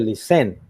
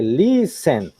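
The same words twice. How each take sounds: First: The stress is on the second syllable. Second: The stress is on the first syllable. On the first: The speaker calls it wrong. "Que no dice listen" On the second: The speaker calls it right. "sino que dice listen"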